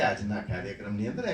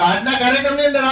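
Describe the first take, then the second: First: The phrase is spoken slowly and softly. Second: The phrase is spoken fast and loudly. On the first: The speaker calls it right. "એમ કરીને ધીમે બોલવું પડે" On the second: The speaker calls it wrong. "નહીં તો ... એમ કરીને બોલવા બેસો ને ... તમારું ગળું બેસી જશે"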